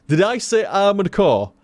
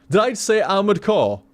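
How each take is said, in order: The two takes are said the same way.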